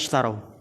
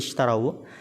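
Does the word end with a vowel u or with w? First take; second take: w; vowel u. First: The word ends on w with no vowel. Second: The word ends with a short u vowel. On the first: This is the original form of the word. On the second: The form changes because two vowelless sounds meet. "Tapi kok bisa jadi"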